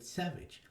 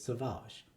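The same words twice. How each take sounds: First: It sounds like the ordinary English word savage. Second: It sounds different from the ordinary English word. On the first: This is how fans read the spelling. "When people have been talking about it, they've said Savage" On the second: This is the name's official pronunciation. "the actual show says Savage"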